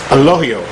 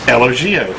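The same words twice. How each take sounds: First: The middle consonant is an h sound. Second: The middle consonant is a hard g sound. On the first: The speaker calls it right. "the G is actually pronounced as an H" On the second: The speaker calls it wrong. "it looks like it says Elogio, which is what I've been calling it"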